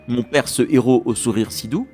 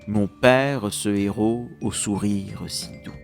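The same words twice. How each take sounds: First: The mute e sounds are dropped. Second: The mute e sounds are pronounced. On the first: The speaker calls it wrong. "Ce n'est pas" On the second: The speaker calls it right.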